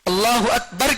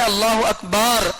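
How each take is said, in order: First: The ba syllable in Akbar is short. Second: The ba syllable in Akbar is drawn out. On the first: God is the greatest. The speaker calls it right. "के बजाय" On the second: It turns the phrase into a blasphemous statement. The speaker calls it wrong. "बा को खींचता है"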